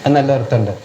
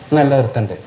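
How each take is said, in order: No difference in how they are said.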